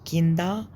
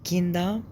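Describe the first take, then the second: The two takes are said the same way.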